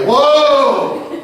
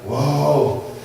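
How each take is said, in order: First: It is said with the most force. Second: It is said with more force.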